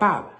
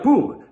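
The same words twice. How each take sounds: First: The vowel is an English-style uh sound. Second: The vowel is a rounded Spanish oo sound. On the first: The word is pronounced as in English. "se pronuncia pub" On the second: The word is read as written in Spanish. "ya no se pronuncia pub"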